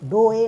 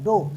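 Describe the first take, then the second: First: An extra e sound follows the o. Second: The word ends on the o sound. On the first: The speaker calls it wrong. "डो ए नहीं" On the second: The speaker calls it right. "सिर्फ क्या पढ़ेंगे, डो"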